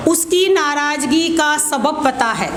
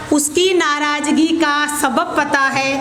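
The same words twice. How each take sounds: The two takes are said the same way.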